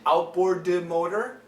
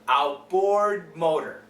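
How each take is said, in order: First: The D in outboard is fully released. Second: The D in outboard is held, not released. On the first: The speaker calls it wrong. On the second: The speaker calls it right. "we go all the way to the D, but we don't finish it"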